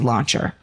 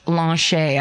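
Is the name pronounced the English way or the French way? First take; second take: English; French. First: The name is pronounced the English way. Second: The name is pronounced the French way. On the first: "it could be Launcher" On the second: "I'm going to pronounce it French"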